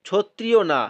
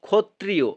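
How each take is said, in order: First: The word begins with a ch sound. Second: The word begins with a kh sound. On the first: The speaker calls it wrong. "ছ আমরা লিখবো না" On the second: The speaker calls it right. "যুক্ত খ"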